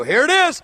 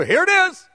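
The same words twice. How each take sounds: First: Raised, eager "Here it is"; eager reveal. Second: "Here it is" pitched high, looking up; bigger reveal. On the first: Reading verse five to the young believer, eager. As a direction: lean in to the payoff. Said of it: "I go". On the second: Looking up from the verse at the young believer, thrilled. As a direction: lift it high like the big moment has arrived. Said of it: "I actually said then and looked up, go". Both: Retold or imitated.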